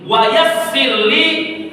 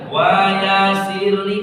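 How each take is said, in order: First: The s sound is held long and doubled. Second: The s sound is short and single. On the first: The speaker calls it right. "dibaca dengan penekanan, ada tasdid di atas huruf sin" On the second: The speaker calls it wrong. "tidak boleh baca wa yasirli"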